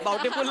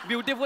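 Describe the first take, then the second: First: The first syllable sounds like 'bau'. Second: The first syllable sounds like 'byoo'. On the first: The speaker calls it wrong. "बाउटीफुल नाही" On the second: The speaker calls it right. "ब्युटिफुल आहे ते"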